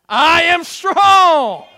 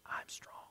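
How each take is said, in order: First: It is said in a loud shout. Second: It is said in a weak, faint voice.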